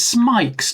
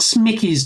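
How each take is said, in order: First: The name is said with one syllable. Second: The name is said with two syllables. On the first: The speaker calls it right. "Let's pronounce it right. It's Smike's" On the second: The speaker calls it wrong. "It's not Smickey's"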